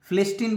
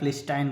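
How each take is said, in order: First: The last syllable sounds like 'teen'. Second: The last syllable sounds like 'tine'. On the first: "फिलिस्टीन बोल सकते हैं" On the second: "या फिलिस्टाइन बोल सकते हैं"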